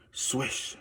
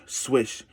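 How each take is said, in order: First: A soft unvoiced swish, breath only; whispered swish. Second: Said in the usual way. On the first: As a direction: breathe the swish out like a sneaking noise. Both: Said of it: "Then she heard something".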